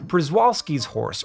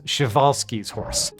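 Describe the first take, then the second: First: The name is said in an Americanized way. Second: The name is said in a non-Americanized way. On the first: The speaker calls it wrong. "I did pronounce that in the fairly common Americanized way" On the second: The speaker calls it right. "it's more correct to pronounce it as"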